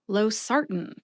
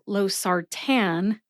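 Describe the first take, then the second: First: The A in the last syllable is nearly dropped. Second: The last syllable has a full, clear A vowel. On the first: The speaker calls it right. "Note that I eat the A in the last syllable" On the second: The speaker calls it wrong. "Not losartan"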